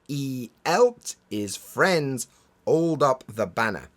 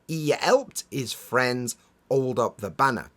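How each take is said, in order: First: The H sounds at word starts are dropped. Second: The same.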